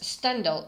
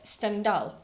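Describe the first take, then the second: First: The stress is on the first syllable. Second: The stress is on the last syllable. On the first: The speaker calls it wrong. "I used English stress" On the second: The speaker calls it right. "Stendhal is the correct pronunciation because in French language, stress is at the end of the word"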